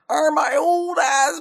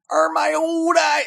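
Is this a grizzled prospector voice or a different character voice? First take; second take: different character; prospector. First: It is said in a different character voice. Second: It is said in a grizzled prospector voice. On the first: The speaker calls it right. "That's not the same voice you were doing earlier, but I think it's an improvement" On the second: The speaker calls it wrong. "that's a grizzled prospector"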